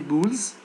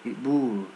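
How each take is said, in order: First: The word ends with an s sound. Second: The word ends without an s sound. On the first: The speaker calls it wrong. "Don't say boules" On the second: The speaker calls it right. "in French we don't pronounce s"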